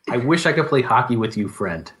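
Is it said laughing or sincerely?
sincerely. It is said sincerely, without laughing.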